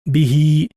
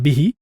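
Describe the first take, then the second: First: The final vowel is long. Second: The final vowel is short. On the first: The speaker calls it right. "this one again has elongated sound" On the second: The speaker calls it wrong. "It's not bihi"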